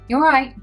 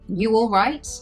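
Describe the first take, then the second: First: The phrase is said quickly and run together. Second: The phrase is said at a normal, unhurried pace.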